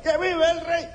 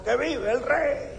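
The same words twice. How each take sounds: First: Very high joyful cheer; happiest cheer. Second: Pitched-up cheer for the king; high parade cheer. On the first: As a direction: cheer like the happiest man in the parade. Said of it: "el más feliz del desfile". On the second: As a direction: call it out like a parade crowd. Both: Retold or imitated.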